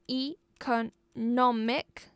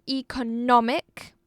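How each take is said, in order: First: Economic in four slow, separate beats; syllable by syllable. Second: Economic with NOM punched; stressed syllable shown. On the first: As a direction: slowly split economic into e, co, nom, ic. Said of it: "four-syllable noun". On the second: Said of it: "we emphasized on the second syllable". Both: Shown as a demonstration.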